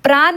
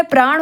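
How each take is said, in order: First: प्राण ending in plain dental n; wrong प्राण. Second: प्राण ending in retroflex ण; correct प्राण. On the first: Teacher shows the misspelling, प्राण with plain n. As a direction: say प्राण as "praan" with न. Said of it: "नहीं होता है". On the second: Teacher gives the correct word, प्राण with retroflex n. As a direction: curl the tongue to end प्राण. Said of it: "होता है". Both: Shown as a demonstration.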